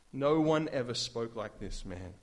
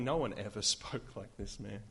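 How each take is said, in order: First: Said in the usual way. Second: Laughing delight. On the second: Real, not acted. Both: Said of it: "Some of my favorite words".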